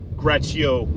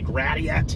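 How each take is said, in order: First: The name is given a French-style pronunciation. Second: The name is given an English-style pronunciation. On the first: "it's Gratio is the word in French Canadian" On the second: "I don't know if you guys say Gratiot or what"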